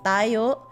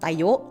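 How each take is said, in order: First: The final syllable is not cut short. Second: The final syllable is cut very short. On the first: It means we. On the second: It means stand up.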